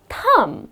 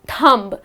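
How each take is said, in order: First: No B sound is heard at the end. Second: A B sound is heard at the end. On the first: The speaker calls it right. "it's just thumb" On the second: The speaker calls it wrong. "So many people pronounce it as thumb"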